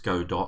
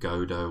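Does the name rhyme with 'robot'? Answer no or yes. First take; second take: yes; no. First: The name is said to rhyme with robot. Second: The name is said not rhyming with robot. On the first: "as in robot" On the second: "some people like to call it"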